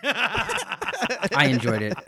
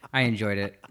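First: Slow, high, sing-song I enjoyed it; drawn-out mock praise. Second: Said in the usual way. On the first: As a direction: stretch it out teasingly. Teasing reply to embarrassment.

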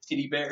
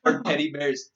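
First: "titty" for teddy, first vowel a short I; Kiwi vowel shift. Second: Said in the usual way. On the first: Shown as a demonstration. Joking about Kiwi vowels, teddy said as "titty". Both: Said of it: "anything with an E, it was an I".

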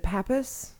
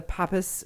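First: "Pappas" pronounced PAP-us, as a question; first vowel of "Pappas" as in apple; "Pappas" with short a. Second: "Pappas" pronounced PAH-pus; first vowel of "Pappas" as in father. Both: Real, not acted. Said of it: "is it Pappas?".

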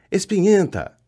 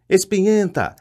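First: Higher-pitched mocking poltergeist cry, repeated; taunting yell. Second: Higher-pitched mocking poltergeist cry; taunting yell. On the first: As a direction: keep jeering at her. (grito zombeteiro e agudo, repetido) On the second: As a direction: jeer at her as she flees. (grito zombeteiro e agudo de poltergeist) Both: A narrator's reading.

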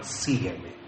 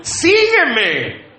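First: Low, very soft murmur to a sweetheart; enamorado. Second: High, emphatic call to the wife; mock husband's call. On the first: Acted. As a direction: drop the voice low and soft, wooing her. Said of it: "Cuando se enamoraron". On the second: Comic replay of husband's call.

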